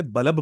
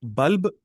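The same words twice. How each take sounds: First: बल्ब said as bu-lab, with an extra vowel between l and b; Urdu-style bulab. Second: बल्ब said as one tight syllable, bulb, no vowel between l and b; correct English bulb. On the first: Teacher imitating how Urdu speakers say bulb. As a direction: split बल्ब into two syllables, bulab. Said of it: "बल्ब बोलते हैं". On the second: Teacher showing students the correct English bulb. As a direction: say बल्ब clipped to one beat. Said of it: "हम इसको बल्ब नहीं बोलते". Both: Shown as a demonstration.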